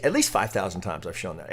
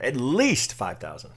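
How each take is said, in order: First: Said in the usual way. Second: "At least five thousand" slowed, each word leaned on; slow emphatic repeat. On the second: Real, not acted. Repeating his count to traders, slow and emphatic. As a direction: drag out "least" to drive the count home.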